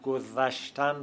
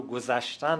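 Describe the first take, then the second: First: گذشتن with ذ as a voiced th; old zal pronunciation. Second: Said in the usual way. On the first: Shown as a demonstration. Linguist contrasts old and modern forms, گذشتن with interdental th. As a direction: say گذشتن as "godhashtan", th as in "this". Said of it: "به ز بدل شده است".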